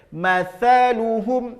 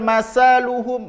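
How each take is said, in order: First: The first consonant is a soft 'th' sound. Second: The first consonant is an 's' sound. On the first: The speaker calls it right. "Nah itu dia" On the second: The speaker calls it wrong.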